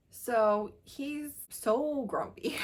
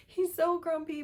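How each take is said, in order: First: Slow, leaning on each word; relishing slow emphasis; drawn-out emphasis. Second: Higher, delighted repeat; delighted higher squeal on grumpy; squealy gush. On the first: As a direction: savor the word so, stretched out slowly. Gushing about the grumpy hero. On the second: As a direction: say it again, pitched up with glee. Repeats it after a laugh. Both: Real, not acted.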